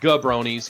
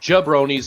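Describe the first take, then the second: First: The name begins with a hard G sound. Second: The name begins with a J sound. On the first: The speaker calls it wrong. "not Gabronis" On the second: The speaker calls it right. "It is Jabronis, even though it's not spelled with a J"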